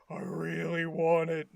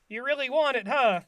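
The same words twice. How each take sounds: First: Low monotone, eerily intent; creepy Patrick. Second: Higher, swooping placating question; SpongeBob. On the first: Patrick at the window wanting the shirt, creepy low voice. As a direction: drop low and hold it creepily level. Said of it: "Patrick's so creepy". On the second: SpongeBob humouring Patrick about the shirt, higher lilting voice. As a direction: humour him, ending on a louder "huh". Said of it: "SpongeBob is like". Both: Retold or imitated.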